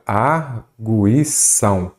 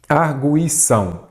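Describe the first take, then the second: First: "Arguição" very slow, broken into its syllables; "Arguição" spelled out slowly in separate beats. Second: Said in the usual way. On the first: Shown as a demonstration. Same word split into syllables.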